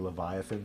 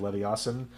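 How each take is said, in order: First: Said in the usual way. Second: Leviathan said the Ashkenazi Hebrew way; Ashkenazi pronunciation. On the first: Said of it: "way of saying Leviathan". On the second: Shown as a demonstration. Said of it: "the Ashkenazi way of saying Leviathan".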